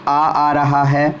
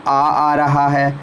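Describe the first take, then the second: The two takes are said the same way.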